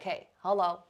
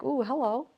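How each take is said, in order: First: It is said in a direct, forward tone. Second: It is said in a seductive, playful tone.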